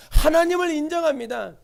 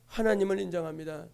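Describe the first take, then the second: First: Said in the usual way. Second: Low, soft and inward, 하나님을 said gently; quiet, devout repeat of 하나님을 인정합니다; hushed affirmation. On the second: Acted. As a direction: drop to a hush on 하나님을 인정합니다.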